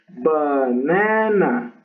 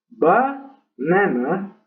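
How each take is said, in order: First: No syllable is stressed; it sounds flat. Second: The stress is on the first syllable. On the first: "Esa ahí no tiene nada de acento" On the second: "ese acento en la primera sílaba de banana"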